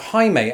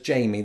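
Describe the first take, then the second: First: The name is said the Spanish way. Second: The name is said the English way. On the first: The speaker calls it right. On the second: The speaker calls it wrong.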